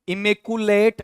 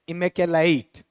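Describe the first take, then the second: First: The middle syllable is said without the 'kya' sound. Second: The middle syllable is said with a 'kya' sound. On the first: The speaker calls it wrong. "ऐसा नहीं" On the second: The speaker calls it right. "इमे कै आधा ये के साथ ए ले ईट"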